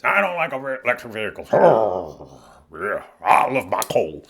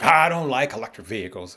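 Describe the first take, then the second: First: Put-on voice of an older grumbler; mock a stubborn older sister who hates change; woman in her sixties. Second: Lightly voiced sister resisting new things; mild put-on grumble, imitating her; buddy's sister. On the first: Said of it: "she's in her sixties". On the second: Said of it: "she don't like nothing new".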